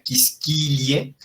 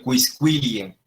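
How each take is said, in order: First: QUISQUILIE with qu as plain k; wrong silent u. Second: QUISQUILIE corrected to "kwis-kwi-lie". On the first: Latin teacher shows the mistake to avoid, QUISQUILIE as "kiskilie". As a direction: say "kis-ki-lie", dropping the u in quisquilie. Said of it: "no se diría quisquilie". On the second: Latin teacher corrects the mistake, QUISQUILIE with clear kw. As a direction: sound the u after each q in quisquilie. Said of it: "sino quisquilie". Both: Shown as a demonstration.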